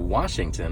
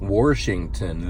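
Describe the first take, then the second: First: It is said in a standard accent. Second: It is said in a Kentucky accent.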